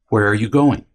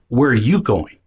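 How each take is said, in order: First: It sounds like a plain, neutral question. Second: It sounds like an accusing demand.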